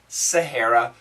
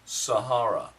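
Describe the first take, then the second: First: It is said in an American accent. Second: It is said in a British accent. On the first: "American pronunciation" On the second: "British pronunciation"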